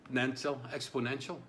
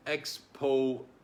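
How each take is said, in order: First: Said in the usual way. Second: "Exponential" broken into slow, loud syllables. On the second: Shown as a demonstration. Struggling to pronounce the key word, "Exponential" in slow separate syllables. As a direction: sound out "Exponential" slowly, one syllable at a time. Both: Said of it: "Can you do some syllables for me?".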